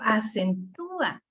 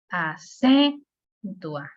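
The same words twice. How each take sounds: First: The stress falls on the third syllable, tú. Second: The stress falls on the second syllable, cen. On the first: The speaker calls it right. "Pero en cambio si digo acentúa, o sea, el sonido me lo pide" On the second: The speaker calls it wrong. "No se lo pudiera dar a, por ejemplo, la C, acentúa. No, se ve medio raro"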